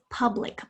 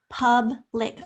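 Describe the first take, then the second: First: Said in the usual way. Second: Public broken firmly into pub, then lic; split into syllables. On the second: Shown as a demonstration. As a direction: sound out public, louder, syllable by syllable. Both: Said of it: "Say the word to yourself in syllables".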